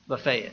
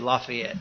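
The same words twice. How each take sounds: First: It is said the Tennessee local way. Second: It is said the northern local way.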